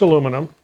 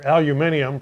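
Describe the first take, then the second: First: It is said in the American way, four syllables. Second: It is said in the British way, five syllables.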